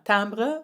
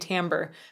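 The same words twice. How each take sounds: First: The word has a French pronunciation. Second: The word has an English pronunciation. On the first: "timbre would be the French" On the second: "I'm going to say timbre because that's one of the ways that I learned it"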